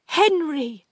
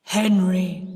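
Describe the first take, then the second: First: High, loud, fearful call; frightened. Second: Loud, drawn-out ghostly deep voice. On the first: Aunt addressing Henry's ghost, frightened. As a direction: call the name in dread, pitched up. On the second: Sis posing as dead Henry to her aunt, deep voice. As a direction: intone the name like a ghost. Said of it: "in the same deep voice". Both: A narrator's reading.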